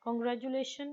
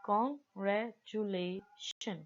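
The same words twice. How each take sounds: First: Said in the usual way. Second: Congratulation very slowly, broken as con-gra-tula-tion; pauses between syllables. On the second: Shown as a demonstration. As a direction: stop after each chunk of Congratulation. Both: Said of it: "चार जगह पे रुकना पड़ा है".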